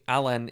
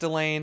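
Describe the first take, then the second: First: The name is said like the word Alan. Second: The name is said like the word Elaine. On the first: This is the official pronunciation. The speaker calls it right. "Alan is the actual correct, correct pronunciation" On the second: This is the familiar habitual pronunciation. The speaker calls it wrong. "which I've always pronounced Elaine"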